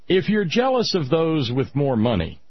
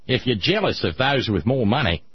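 First: It is said in the speaker's normal accent. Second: It is said in an Australian accent.

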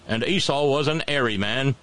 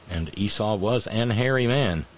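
First: It is said in an English accent. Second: It is said in the speaker's plain accent. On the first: The speaker calls it right. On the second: The speaker calls it wrong.

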